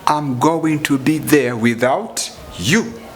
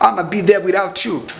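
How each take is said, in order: First: I'm going to is said in full. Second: I'm going to is shortened to I'ma.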